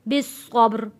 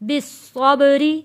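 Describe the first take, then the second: First: It stops on a heavy, thick r, no vowel. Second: A light, thin r followed by an i vowel. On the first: "वक्फ में ये रॉ मोटी पड़ी जाएगी" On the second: "रॉ बारीक पड़ी जाएगी क्योंकि रॉ के नीचे ज़ेर है"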